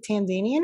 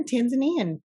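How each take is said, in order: First: "Tanzanian" with a long ZAY, tan-ZAY-nee-an; pronunciation variant. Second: "Tanzanian" as tan-zuh-NEE-an; alternative pronunciation. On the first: Co-host asks how to say it, "Tanzanian" as tan-ZAY-nee-an. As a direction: say "Tanzanian" stressing ZAY like "zane". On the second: Co-host offers other option, "Tanzanian" as tan-zuh-NEE-an. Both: Shown as a demonstration. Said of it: "How do you say that?".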